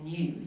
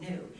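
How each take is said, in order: First: It is said with an Australian pronunciation. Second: It is said with an American pronunciation. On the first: "we say new" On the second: "you guys say new"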